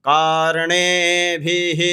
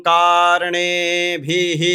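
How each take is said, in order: The two takes are said the same way.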